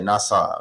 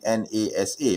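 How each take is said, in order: First: Nasa said as one two-syllable word; acronym as a word. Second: N A S A said letter by letter; name each letter, en, ay, ess, ay; spelled-out acronym. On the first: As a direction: blend the letters into nasa. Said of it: "people just pronounce it as nasa". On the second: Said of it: "the correct pronunciation should be". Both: Shown as a demonstration.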